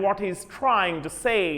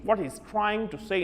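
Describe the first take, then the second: First: The phrase is said in an American accent. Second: The phrase is said in a British accent. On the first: "Americans र पढ़ते हैं" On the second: "But Britishers"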